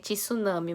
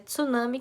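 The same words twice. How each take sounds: First: It is pronounced as spelled, Brazilian style. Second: It is pronounced differently, not as spelled. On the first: This is how people in Brazil say it. The speaker calls it wrong. "No Brasil eles falam como se lê" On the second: This is how it should be said. The speaker calls it right. "mas é tsunami que fala"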